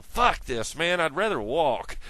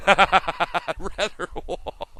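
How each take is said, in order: First: Said in the usual way. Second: Louder and higher, laughing it out; a giggling echo of I'd rather walk. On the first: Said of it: "you're going". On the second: Real, not acted. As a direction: repeat it slowly through a laugh. Laughing repeat of the quote.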